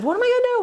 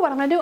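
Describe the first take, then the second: First: A hint of panic. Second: Said in the usual way. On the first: Frantic prayer leader.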